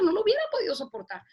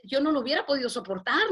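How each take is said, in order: First: Soportar said higher and faster, insisting; emphatic repeat. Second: Said in the usual way. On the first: Real, not acted. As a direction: hammer it home the second time. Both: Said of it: "repeated with emphasis".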